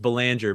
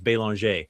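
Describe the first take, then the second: First: The name is pronounced the English way. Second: The name is pronounced the French way. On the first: "my last name is Belanger" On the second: "the proper French pronunciation is Bélanger"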